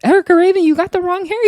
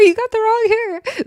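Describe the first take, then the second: First: Much higher, louder shouted warning; mock yelling. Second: Even higher, squealed repeat of "wrong hair"; shrill repeat yell. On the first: Cast shouting at Erica Raven over the fight, high yell. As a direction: yell it across the brawl. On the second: Retold or imitated. Cast screaming again at Erica Raven, shriller yell. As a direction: shriek it again, more frantic. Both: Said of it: "They're all yelling".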